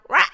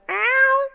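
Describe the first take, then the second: First: The meow sounds hoarse and raspy. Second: The meow sounds clear and normal.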